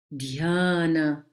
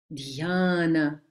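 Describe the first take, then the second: The two takes are said the same way.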